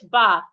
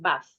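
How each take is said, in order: First: It has a long vowel, British style. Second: It has a short vowel, American style. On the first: "as a long sound for British bath" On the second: "as a short sound for American bath"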